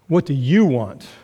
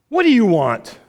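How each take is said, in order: First: It sounds loaded, carrying suspicious connotations. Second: It sounds irritated, like get away from me.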